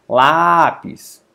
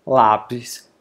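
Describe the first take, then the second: First: LÁpis, first syllable drawn out and loud; stress on penultimate. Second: Said in the usual way. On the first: Shown as a demonstration. Teacher showing the strong syllable, Lápis stressed on "Lá". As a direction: stretch and punch the "Lá" of Lápis. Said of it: "É pronunciado com mais força". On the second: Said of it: "é pronunciada com mais força".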